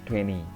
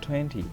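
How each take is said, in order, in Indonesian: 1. Diucapkan dengan cara yang santai, tidak formal. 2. Diucapkan dengan cara yang hati-hati dan formal. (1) "Ada beberapa orang yang menyebutnya twenty ... tapi itu tidak formal ya" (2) "Yang formal adalah twenty"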